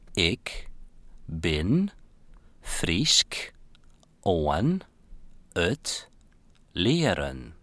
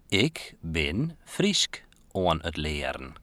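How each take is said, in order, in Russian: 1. Произносится очень медленно и тщательно. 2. Произносится медленнее обычного. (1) "Теперь еще медленно, чтобы мы смогли повторить" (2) "Скажи еще раз более медленно"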